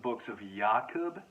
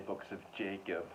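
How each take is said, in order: First: The name is given its Polish pronunciation. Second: The name is given its English pronunciation. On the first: "I actually believe it's pronounced The Books of Jakub in the Polish" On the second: "I'm just going to say Books of Jacob"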